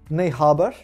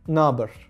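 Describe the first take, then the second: First: Both words are said in full. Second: The words are run together into one.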